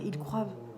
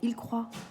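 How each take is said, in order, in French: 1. Le verbe finit par un son v ajouté. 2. Le verbe finit sans aucun son v. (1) "ça n'existe pas" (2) "Tu dis"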